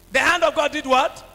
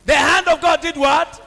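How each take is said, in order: First: Said in the usual way. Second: Louder call to the congregation; louder repeat to rouse them; louder call to the crowd. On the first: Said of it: "call and response question". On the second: Shown as a demonstration. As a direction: push it out louder. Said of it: "repeated louder to congregation".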